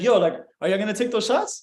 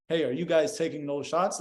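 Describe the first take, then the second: First: Playful question with a rising end; fun, joking tone. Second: Subdued, softer stiff question; weird, awkward way. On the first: Chatting up a girl about shots, fun and playful. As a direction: toss it out like you're having fun. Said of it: "in that tone of voice". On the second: Showing the wrong approach to strangers about shots, weird and low-energy. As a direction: ask it awkwardly, with the fun drained out. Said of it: "in a very weird ass way". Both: Shown as a demonstration.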